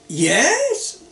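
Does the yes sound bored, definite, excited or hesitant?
excited. It is said in a bright, enthusiastic way. The idea sounds great. "really sounds great"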